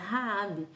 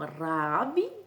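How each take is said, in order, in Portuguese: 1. O primeiro R tem a pronúncia brasileira. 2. O primeiro R tem a pronúncia local. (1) "no Brasil, é um pouquinho diferente" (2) "aqui eles pronunciam o R com Ra"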